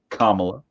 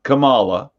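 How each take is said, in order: First: The first part sounds like the word comma. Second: The first part does not sound like comma. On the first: The speaker calls it wrong. "remember the word comma because that's how you pronounce it" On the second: The speaker calls it right. "not Kamala, the way it's supposed to be pronounced"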